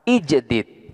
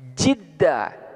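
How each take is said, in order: First: The two d sounds are kept apart by a vowel. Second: The two d sounds merge into one doubled d. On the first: "manakala dibaca ijdid, ini huruf tat'ibnya tidak diidghamkan" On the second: "manakala dibaca jidda, huruf tat'ibnya ini diidghamkan"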